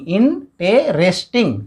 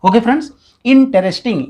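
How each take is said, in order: First: interesting said slowly, each of its four syllables tapped out; teacher tapping out syllables; slow syllable counting. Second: Said in the usual way. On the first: Shown as a demonstration. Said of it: "चार बार, है ना, चार बार touch करा है". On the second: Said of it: "interesting चार बार".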